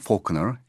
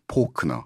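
First: It is said with an American pronunciation. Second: It is said with a Korean pronunciation.

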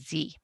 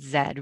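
First: The letter is said as American zee. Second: The letter is said as Canadian zed.

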